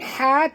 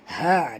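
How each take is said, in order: First: The h sound is light, from the front. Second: The h sound is deep, from the throat. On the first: The speaker calls it wrong. "bukan ha" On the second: The speaker calls it right. "tapi ha dalam"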